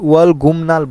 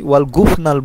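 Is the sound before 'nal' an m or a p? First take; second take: m; p. First: An m sound comes right before nal. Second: A p sound comes right before nal. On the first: This is how the word is actually said. The speaker calls it right. "ওয়াল গুমনাল বলছি" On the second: This is not how the word is said. The speaker calls it wrong. "ওয়াল গুফনাল বলি নাই"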